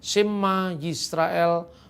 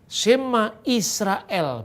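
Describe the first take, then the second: First: The second word begins with a 'yi' sound. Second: The second word begins with a plain 'i' sound.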